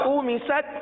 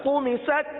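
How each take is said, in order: Both takes have the same delivery.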